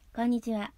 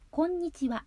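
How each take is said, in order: First: The sounds are squashed and mumbled together. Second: The sounds are crisp and clearly articulated. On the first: The speaker calls it wrong. "こんにちはではなく" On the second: The speaker calls it right. "唇を縦に開く…こうするとハキハキと聞こえ"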